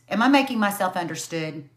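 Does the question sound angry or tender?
angry. It sounds bitter, angry and defensive.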